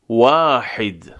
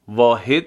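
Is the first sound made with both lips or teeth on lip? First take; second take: both lips; teeth on lip. First: The first sound uses both rounded lips. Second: The first sound uses upper teeth on lower lip. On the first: The speaker calls it right. "برای تلفظ واو لبها حالت غنچه ای، یعنی از برخورد دو لب" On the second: The speaker calls it wrong. "واحد نمیگیم"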